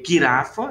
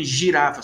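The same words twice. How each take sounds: First: Girafa said "guirafa", G as in gato; hard G. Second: Said in the usual way. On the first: Shown as a demonstration. Teacher shows how Hebrew would say it, girafa with hard G. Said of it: "seria girafa". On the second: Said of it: "Não tem girafa".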